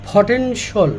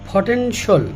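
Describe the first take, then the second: Both takes have the same delivery.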